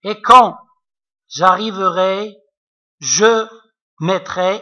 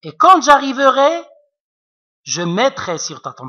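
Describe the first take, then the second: First: The pause comes after je mettrai. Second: The pause comes after j'arriverai.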